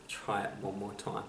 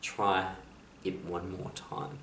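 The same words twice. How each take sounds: First: Hushed and much softer, nearly gone; soft whisper. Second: Soft whisper. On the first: Quote repeated for the audience, hope answering in a hushed whisper. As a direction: let hope whisper it gently. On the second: Inspirational quote, hope answering the world, hushed whisper. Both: Acted. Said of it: "hope whispers".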